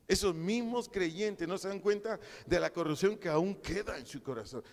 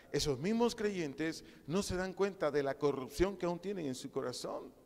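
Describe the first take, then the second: First: Preached with rising force; emphatic repeat. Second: Said in the usual way. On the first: Shown as a demonstration. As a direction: drive it home to the congregation. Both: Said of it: "repeated louder".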